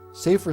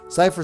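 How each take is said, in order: First: The first vowel sounds like 'ay', as in safer. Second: The first vowel sounds like 'eye', as in cyber. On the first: "some read it as safer" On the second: "spoken like cyber, is the correct German pronunciation"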